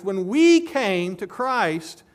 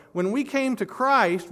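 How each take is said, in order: First: "we" stretched and louder, slowly; stress on we. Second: Said in the usual way. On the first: Shown as a demonstration. Preacher stressing who came to Christ, emphatic stress on "we". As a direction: repeat it leaning hard on "we". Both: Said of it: "It's emphatic".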